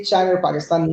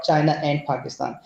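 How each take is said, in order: First: "China or Pakistan" run together, "and" shrunk to an R; "China or Pakistan" with no full "and", only a linking sound; British linking R. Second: Said in the usual way. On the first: Shown as a demonstration. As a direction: link China straight into Pakistan in "China or Pakistan". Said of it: "British used to say". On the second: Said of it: "not China and Pakistan".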